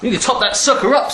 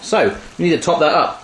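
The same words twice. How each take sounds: First: Higher, playful hyped-up delivery; pitched-up, jokey enthusiasm; hammed-up excitement. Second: Said in the usual way. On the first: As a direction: punch it up with mock gusto. Hammed-up repeat of the previous line.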